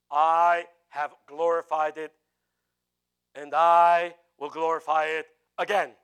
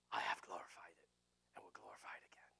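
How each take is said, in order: First: Loud, slow, booming proclamation; voice from heaven. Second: Hushed, breath-only whisper; whispered divine voice. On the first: Acted. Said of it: "Then a voice came from where?". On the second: Shown as a demonstration. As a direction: whisper the words of God clearly. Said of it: "is that a big difference between".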